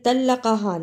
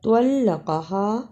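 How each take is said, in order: First: The first consonant is a light plain t. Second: The first consonant is a heavy emphatic t. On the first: The speaker calls it wrong. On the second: The speaker calls it right.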